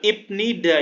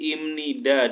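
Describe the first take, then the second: First: The middle consonant is a 'b' sound. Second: The middle consonant is an 'm' sound. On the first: The speaker calls it wrong. "bukan ibnida ya" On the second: The speaker calls it right. "tapi imnida dibacanya"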